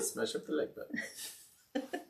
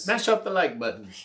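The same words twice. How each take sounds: First: It is said in an imitated British accent. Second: It is said in the speaker's usual accent.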